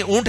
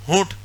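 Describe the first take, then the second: First: اونٹ said with no h, starting on the vowel; proper اونٹ without h; correct pronunciation. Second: ہونٹ with an added h sound, as said for camel; mock wrong ہونٹ with h; wrong pronunciation. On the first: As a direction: say اونٹ cleanly, no h. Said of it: "اونٹ ہے وہ". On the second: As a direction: say ہونٹ with h at the start, the mistaken way. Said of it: "ہونٹ نہیں". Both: Shown as a demonstration.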